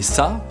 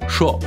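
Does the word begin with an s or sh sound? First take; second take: s; sh. First: The word begins with an s sound. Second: The word begins with a sh sound. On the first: "ça devient" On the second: "ça devient chaud"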